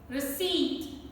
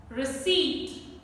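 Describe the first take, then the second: No difference in how they are said.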